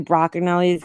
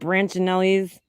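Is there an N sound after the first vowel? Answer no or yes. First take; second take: no; yes. First: The name has no N sound after the first vowel. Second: The name has an N sound after the first vowel. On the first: This is how the name really goes. The speaker calls it right. "but it's really Broccanelli's" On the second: This is how most people say the name. The speaker calls it wrong. "everybody calls it Brancinelli's"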